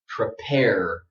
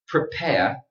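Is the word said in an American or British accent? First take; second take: American; British. First: American accent with a strong final R. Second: British accent with no strong final R. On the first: "So here it is in American English" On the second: "British speakers don't pronounce a strong R at the end"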